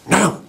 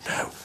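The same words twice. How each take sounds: First: It is said loudly, half whispered. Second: It is said quietly, in a soft whisper.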